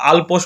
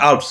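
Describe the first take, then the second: First: The word is said as Alpos. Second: The word is said as Alps. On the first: The speaker calls it wrong. "অনেকে আবার আলপোস বলে" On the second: The speaker calls it right. "সঠিক সঠিক উচ্চারণটা হবে আল্পস"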